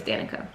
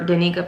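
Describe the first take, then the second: First: Danica said DAN-ih-kuh; correct pronunciation of Danica. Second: Danica said duh-NEE-kuh; wrong pronunciation of Danica. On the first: Reader setting the name right, Danica said DAN-ih-kuh. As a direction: stress the first syllable of Danica, as DAN-ih-kuh. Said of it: "and her name is Danica". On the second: Reader apologising for her error, Danica said duh-NEE-kuh. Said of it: "I called her Danica". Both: Shown as a demonstration.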